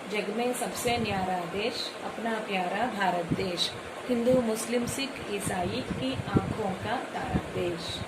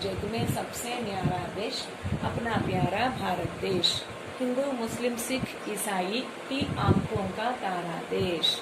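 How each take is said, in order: No difference in how they are said.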